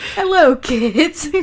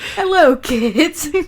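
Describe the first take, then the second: First: It is said in a gruff pirate voice. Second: The same.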